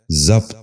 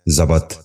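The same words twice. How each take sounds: First: ضبط in one syllable, "zabt"; correct pronunciation. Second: ضبط in two syllables, "za-bat"; wrong pronunciation. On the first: Teacher giving viewers the model, correct pronunciation. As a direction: say ضبط as zabt, no second vowel. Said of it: "درست تلفظ ہے". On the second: Teacher showing viewers the mistake, wrong pronunciation. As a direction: say ضبط as zabat. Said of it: "یہ غلط تلفظ ہے". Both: Shown as a demonstration.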